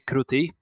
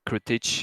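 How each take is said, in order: First: The name ends with a soft 'y' sound. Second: The name ends with a 'ch' sound. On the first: This is how the name is said in Polish. "in Polish, we say kruty" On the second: This is not how the name is said in Polish. "we don't say uh, J as a Krutich"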